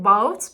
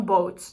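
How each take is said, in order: First: Put-on older vowel in "boat", before the vowel shift; "boat" said with its former vowel; old pronunciation. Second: Said in the usual way. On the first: Shown as a demonstration. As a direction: demonstrate how "boat" was once pronounced. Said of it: "the word once pronounced". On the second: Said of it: "became boat".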